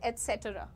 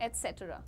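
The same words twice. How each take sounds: First: It starts with an 'ets' sound. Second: The same.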